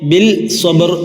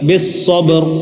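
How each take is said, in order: First: The L is pronounced before the S. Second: The L is absorbed into a doubled S. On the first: The speaker calls it wrong. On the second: The speaker calls it right.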